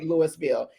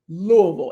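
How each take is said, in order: First: The name is said in full, separate syllables. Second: The name is squeezed together into one rolled word. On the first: The speaker is not from the city. The speaker calls it wrong. "don't say Louisville. Everybody is going to know that you're not from here" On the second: The speaker is from the city. The speaker calls it right. "Just one word, Louisville. It's almost like you got to roll your tongue"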